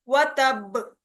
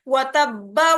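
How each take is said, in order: First: The word stops on the doubled consonant. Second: The word ends with a short vowel.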